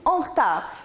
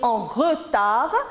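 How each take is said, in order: First: The vowel after the r is dropped. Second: The vowel after the r is fully pronounced.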